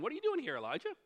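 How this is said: It is said in a puzzled, questioning tone.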